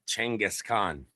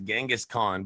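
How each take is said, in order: First: The name is said with Mongolian pronunciation. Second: The name is said with English pronunciation. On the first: "the original Mongolian pronunciation is" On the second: "the standard English pronunciation is"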